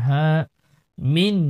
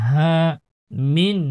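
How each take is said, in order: Both takes have the same delivery.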